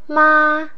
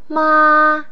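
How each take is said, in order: First: The pitch stays high and level throughout. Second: The same.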